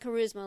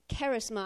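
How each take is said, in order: First: It is said with the usual English pronunciation. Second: It is said with a Greek-style pronunciation. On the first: This is the everyday English word. "Not charisma like we say" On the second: This is the original Greek word. "I think is how you say it"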